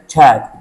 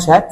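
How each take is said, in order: First: The word begins with a sharp ch sound. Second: The word begins with a soft sh sound. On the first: The speaker calls it right. "لا اسمها تشات" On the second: The speaker calls it wrong. "هو دي اسمها اسمها شات؟ لا"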